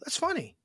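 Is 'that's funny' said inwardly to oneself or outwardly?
outward. It is said outwardly, as a flat remark. The thing is not actually funny. "it's not funny"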